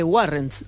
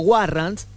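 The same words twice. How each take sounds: First: The word has an English-style pronunciation. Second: The word has a Spanish-style pronunciation.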